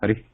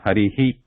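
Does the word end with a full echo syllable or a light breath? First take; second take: light breath; echo syllable. First: The word ends in a very light breath. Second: The final breath is voiced as a separate syllable. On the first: The speaker calls it right. "It's a very light sound" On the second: The speaker calls it wrong. "it sounds like this, Harihi. Um, but it should not be actually"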